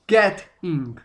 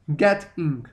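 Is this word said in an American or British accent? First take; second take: British; British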